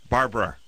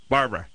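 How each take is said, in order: No difference in how they are said.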